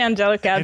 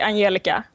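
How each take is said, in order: First: The name has an American English pronunciation. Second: The name has a Swedish pronunciation. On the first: "the American pronunciation is just fine" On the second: "If I were to say it in Swedish, I'd say Angelica"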